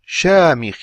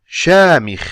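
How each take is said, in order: Both takes have the same delivery.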